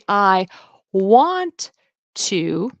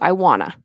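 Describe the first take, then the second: First: Both words are said fully with their t sounds. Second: The words blend into 'wanna' without t sounds. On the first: "instead of saying I want to" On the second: "it'll turn into I wanna"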